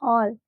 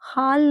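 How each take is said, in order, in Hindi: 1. स्वर गोल 'aw' है। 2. स्वर खुला, बिना गोलाई वाला 'aa' है। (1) "इट्स योर हॉल" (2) "हाल नहीं"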